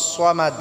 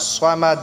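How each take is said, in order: The two takes are said the same way.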